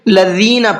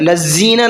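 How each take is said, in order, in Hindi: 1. बीच का व्यंजन नरम है, इसमें कोई सीटी नहीं है। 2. बीच का व्यंजन सीटी वाला, सीटी जैसा 'z' है। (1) "बल्कि लज़ीना पढ़ना है" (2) "नहीं करना है"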